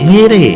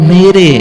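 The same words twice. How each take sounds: Both takes have the same delivery.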